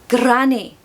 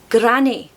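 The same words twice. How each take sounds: Both takes have the same delivery.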